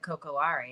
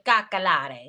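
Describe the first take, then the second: First: The word begins with the sounds 'coco'. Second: The word begins with the sounds 'caca'. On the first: The speaker calls it wrong. "that's not how you say it" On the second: The speaker calls it right. "It's actually cacalare. ... caca like shit?"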